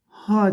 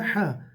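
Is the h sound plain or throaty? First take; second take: plain; throaty. First: The h is a plain, light breath. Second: The h is squeezed tight in the throat. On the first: The speaker calls it wrong. "ha değil" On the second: The speaker calls it right. "boğazımızı sıkıyoruz"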